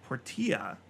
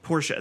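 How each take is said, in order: First: Portia in three syllables, por-TEE-a; Por-tee-a pronunciation. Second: Portia in two syllables, POR-sha; Por-sha pronunciation. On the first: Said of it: "Is it Portia?". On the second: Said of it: "it's P O R". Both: Real, not acted.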